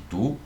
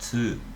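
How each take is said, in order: First: The syllable starts with a plain t sound. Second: The syllable starts with a ts sound. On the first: "ao invés de Tu" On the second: "o som é Tsu"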